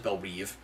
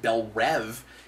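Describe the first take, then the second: First: The second word has a long 'ee' vowel. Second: The second word has a short 'e' vowel. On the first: "this show says Bell Reeve" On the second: "we pronounce it Bell Rev"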